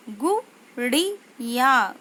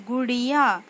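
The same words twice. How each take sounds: First: गुड़िया stretched slowly, syllables apart, falling; slow syllable-by-syllable reading. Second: Said in the usual way. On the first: Shown as a demonstration. Teacher slowly sounds out गुड़िया for pupils. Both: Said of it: "उच्चारण कैसे करते हैं".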